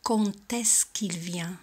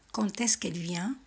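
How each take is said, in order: First: Slow whispered "Quand" with its D as a clear T; quand with a T sound. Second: Said in the usual way. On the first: Shown as a demonstration. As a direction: spell out "Quand est-ce" slowly, the D heard as T. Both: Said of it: "suena como si fuera una T".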